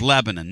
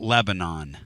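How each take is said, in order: First: It is said with the local pronunciation. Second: It is said with a Northern, Yankee accent. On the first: Locals pronounce the town's name this way. The speaker calls it right. "this is Lebanon, not Lebanon" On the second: An outsider pronounces the town's name. The speaker calls it wrong. "not Lebanon"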